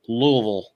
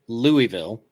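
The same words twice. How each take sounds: First: It is mumbled, as if with rocks in the mouth. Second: It is said clearly, in the northern way. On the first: This is how locals in Kentucky say the city's name. "say it with a, a entire handful of rocks in your mouth" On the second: This is how northerners say the city's name. "in the north, we say it Louisville"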